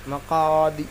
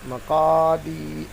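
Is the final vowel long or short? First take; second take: short; long. First: The final vowel is short and quick. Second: The final vowel is drawn out long. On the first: "जल्दी पढ़ेंगे" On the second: "अब दाल को खींच कर पढ़ेंगे"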